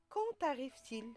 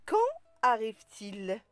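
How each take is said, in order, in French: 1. Un son t relie quand à arrive. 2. Aucun son t ne relie quand à arrive. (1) "On ne dit pas" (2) "on dit"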